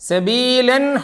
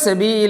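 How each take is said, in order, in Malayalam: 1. ഈ വാക്ക് വ്യക്തമായ n ശബ്ദത്തിലാണ് അവസാനിക്കുന്നത്. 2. ഈ വാക്ക് സ്വരാക്ഷരത്തിലാണ് അവസാനിക്കുന്നത്, n ഇല്ല. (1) "അങ്ങനെ ചേർത്തി ഓതുക" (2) "നിർത്തുമ്പോൾ സബീല"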